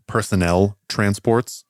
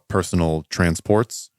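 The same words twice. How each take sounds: First: "personnel" with a higher-pitched last syllable; corrective stress. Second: Said in the usual way. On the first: Real, not acted.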